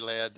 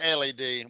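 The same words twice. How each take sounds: First: It is said as one word, like led. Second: It is spelled out as three separate letters. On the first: The speaker calls it wrong. "We don't say L E D" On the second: The speaker calls it right. "We say L E D"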